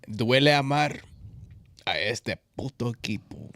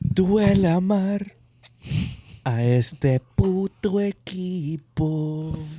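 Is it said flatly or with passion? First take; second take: flatly; passionately. First: It is read out flatly. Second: It is said with more passion.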